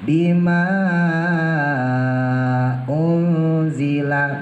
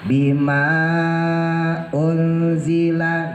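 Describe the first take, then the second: First: The long vowel is held for six counts. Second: The long vowel is held for four counts. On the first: "Boleh dibaca enam seperti mat wajib" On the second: "Boleh dibaca ausat empat, antara dua dan enam"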